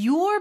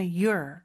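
First: Said in the usual way. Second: "your" cut short and reduced; short reduced pronunciation. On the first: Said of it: "your 이렇게 짧게 하는 경우도". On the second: Shown as a demonstration. Teacher showing a casual variant, "your" said short. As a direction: say "your" quickly, with a short vowel. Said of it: "그냥 your 이렇게 짧게".

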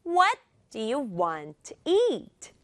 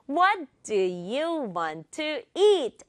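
First: Three slow beats on "What", "want" and "eat"; stress on WHAT, WANT, EAT. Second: Said in the usual way. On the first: Shown as a demonstration. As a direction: punch "What", "want", "eat", glide over the rest. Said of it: "이게 중요하거든요". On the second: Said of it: "세 개만 강조해볼게요".

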